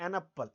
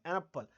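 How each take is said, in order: Both takes have the same delivery.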